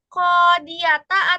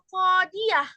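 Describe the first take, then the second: First: The word ends with a 't' and a vowel. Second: The word ends with a soft 'h' sound. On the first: The reading carries on without stopping. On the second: The reading stops on this word.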